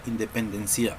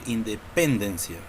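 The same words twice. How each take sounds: First: The stress is on the last syllable. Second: The stress is on the third syllable. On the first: "Tampoco decimos" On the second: "Tampoco podemos decir independencia"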